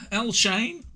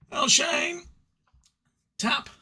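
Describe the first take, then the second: First: "El Shane" tried out, rising, unsure; a careful first try at "El Shane"; tentative pronunciation. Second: "El Shane" announced much higher, in a put-on voice; hammed-up high fanfare on "El Shane"; grand announcement. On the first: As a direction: test the sound of "El Shane" with a lift at the end. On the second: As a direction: proclaim "El Shane" like a ring announcer. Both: Shown as a demonstration. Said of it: "I think that's how it's pronounced".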